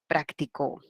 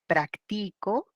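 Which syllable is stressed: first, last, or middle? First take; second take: last; middle. First: The stress is on the last syllable. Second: The stress is on the middle syllable.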